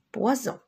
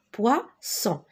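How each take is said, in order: First: "poison" with a voiced, buzzing z in the middle; z sound. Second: "poisson" in two parts, with an unvoiced s; s sound. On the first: Teacher shows what losing an S does, "poison" with z. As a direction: say "poison" with z before the nasal ending. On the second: Teacher contrasts it for learners, "poisson" with a clear s. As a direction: say "poisson" with a clear s before the nasal ending. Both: Shown as a demonstration. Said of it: "Mais si j'enlève le S".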